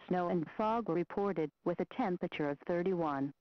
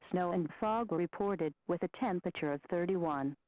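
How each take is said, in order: Both takes have the same delivery.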